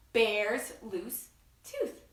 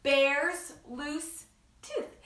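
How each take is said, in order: First: Slow, stretched; slow title with signs. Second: Slow, stretched title; slow title read. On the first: Showing the children the sign, said slowly. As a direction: say it slowly while signing. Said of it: "Can you do that?". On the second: Announcing the book title to children, stretched slowly. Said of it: "book called". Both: Shown as a demonstration.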